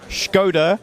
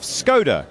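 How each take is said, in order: First: It is said with the traditional Czech pronunciation. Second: It is said with an anglicised English pronunciation. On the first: "traditional pronunciation of" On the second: "the English pronunciation of"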